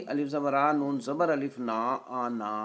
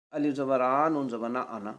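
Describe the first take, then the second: First: The pausal reading, final alif of آنا fully held; long final vowel. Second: The joined reading of انا, last vowel kept short; short final vowel. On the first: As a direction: spell it out, drawing آنا out to a long "naa". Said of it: "وقف کی صورت کیا ہوگی؟". (وقف میں آنا کا آخری الف کھینچ کر) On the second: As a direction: spell it letter by letter, ending انا on a short "na". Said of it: "وصل کی صورت کیا ہوگی؟". (وصل میں انا کا آخری الف گرا کر) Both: Shown as a demonstration.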